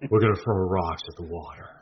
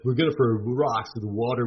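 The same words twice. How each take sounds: First: It is spoken imitating a famous actor's voice. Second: It is spoken in a laid-back Californian accent. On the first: "Now do it as Nicolas Cage" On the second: "I'm going to do it in a Californian accent"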